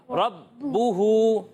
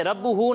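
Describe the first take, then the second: First: रब्बुहू very slowly, leaning on the doubled ब; firm held ba. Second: रब्बुहू passed over quickly, ब not held; without firm hold. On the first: Teacher showing children jamao, a firmly held ब in रब्बुहू. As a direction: hold the ब in रब्बुहू before releasing it. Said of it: "बा को थोड़ा जमाओं के साथ पढ़ना है". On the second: Teacher showing children the wrong reading, ब unheld in रब्बुहू. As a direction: say रब्बुहू with no weight on the doubled ब. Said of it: "इसे रब्बुहू नहीं पढ़ेंगे". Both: Shown as a demonstration.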